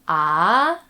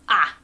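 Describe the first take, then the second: First: The pitch rises from low to high. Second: The pitch falls sharply from high to low. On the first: "the second one goes up" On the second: "the fourth one just goes straight down"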